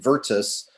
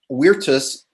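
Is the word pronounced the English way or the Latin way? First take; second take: English; Latin. First: The word is pronounced the English way. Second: The word is pronounced the Latin way. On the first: The speaker calls it wrong. "rather than Virtus" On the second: The speaker calls it right. "using the Latin pronunciation"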